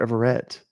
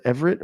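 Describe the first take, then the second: First: Everett as ev-er-ETT, with a full "ett" ending; alternate Everett pronunciation. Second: Everett as EV-er-it, with a short weak last syllable; pronouncing Everett. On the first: Streamer checks a viewer's name, saying Everett as ev-er-ETT. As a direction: say "Everett" with a clear final "-ett". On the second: Streamer checks a viewer's name, saying Everett as EV-er-it. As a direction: say "Everett" ending in a light "-it". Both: Shown as a demonstration. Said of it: "is that Everett or Everett".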